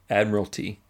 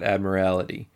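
First: The word does not sound like 'morality'. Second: The word sounds like it contains 'morality'. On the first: The speaker calls it right. "Admiralty, not Admiralty" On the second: The speaker calls it wrong. "It's not like morality"

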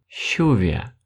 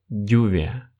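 First: It starts with a soft 'sh' sound, Argentine style. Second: It starts with a soft 'dy' sound, Spain style.

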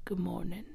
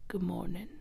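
First: It is said in a deep, slow, grumpy voice. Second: It is said in a deep, slow, grumpy voice.

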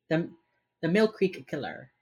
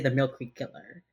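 First: Each word is carefully and separately enunciated. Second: The words are run together casually. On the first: The speaker calls it right. "I have to for my brain" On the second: The speaker calls it wrong. "If I say it just like normally"

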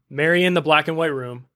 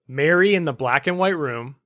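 First: It is said at normal speed. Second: It is said slowly and carefully.

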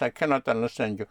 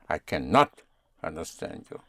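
First: No word gets special stress. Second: The word not is stressed.

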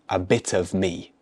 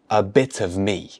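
Both takes have the same delivery.

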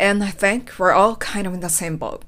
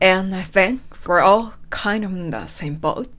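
First: The sentence is said at a faster pace. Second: The sentence is said at a slower pace. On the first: "少し早くします。" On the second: "今のスピードでもう一度。"

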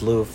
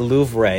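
First: The word is one syllable with no 'ray' ending. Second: The word ends with an extra 'ray' syllable. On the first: The speaker calls it right. "It's just Louvre. You don't need Ray" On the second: The speaker calls it wrong. "you don't say Louvre"

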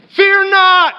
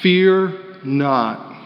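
First: It is said at a high volume. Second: It is said at a low volume.

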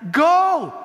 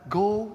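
First: It is said forcefully, like an urgent command. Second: It is said mildly, like a casual suggestion. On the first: Going is required. The speaker calls it right. "But I think the tone of Jesus here is that" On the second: Going is only optional. The speaker calls it wrong. "As if it is just a suggestion for us to go"

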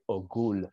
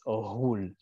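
First: The middle consonant is a hard G. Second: The middle consonant is a soft guttural sound. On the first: The speaker calls it wrong. "if you read it, you might say Ogul, but it's not a G" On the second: The speaker calls it right. "it's Ohul with like a G-H. It's almost like a rolling R"

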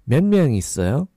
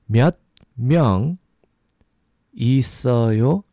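First: It is said a little faster. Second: It is said at a normal, slower pace.

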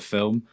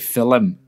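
First: It is said in a standard accent. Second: It is said in an Irish accent.

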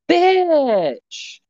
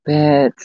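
First: It is said in a surprised tone. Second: It is said in a sad tone.

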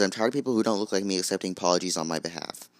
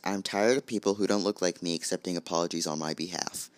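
First: It is said fast. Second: It is said slowly.

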